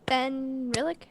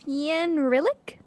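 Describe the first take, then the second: First: The opening is said as one syllable. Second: The opening is split into two syllables. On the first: The speaker calls it right. "It's Fenrilic is yeah, it's close enough" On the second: The speaker calls it wrong. "You don't have to put two syllables on the beginning"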